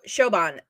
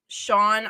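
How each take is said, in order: First: The name is said as two syllables. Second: The name is said as one syllable. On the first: The speaker calls it right. "thank you, Nancy" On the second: The speaker calls it wrong. "I know I pronounced this name wrong"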